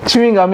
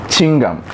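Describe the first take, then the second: First: "chewing gum" in three syllables, "choo-ing gum"; correct chewing gum. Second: "chewing gum" squashed to two syllables, "ching-gum"; mispronounced chewing gum. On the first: Teacher giving preferred form, "chewing gum" as "choo-ing gum". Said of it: "chewing gum instead of". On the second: Teacher showing form to drop, "chewing gum" as "ching-gum". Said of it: "instead of". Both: Shown as a demonstration.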